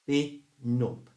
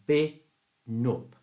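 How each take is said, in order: Both takes have the same delivery.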